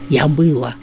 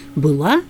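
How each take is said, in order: First: The stress is on the first syllable. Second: The stress is on the last syllable.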